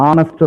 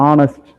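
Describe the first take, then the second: No difference in how they are said.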